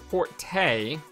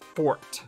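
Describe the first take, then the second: First: The word ends with a pronounced vowel sound. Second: The word ends without a vowel sound. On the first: The speaker calls it wrong. "a word that doesn't exist" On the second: The speaker calls it right. "with E being silent"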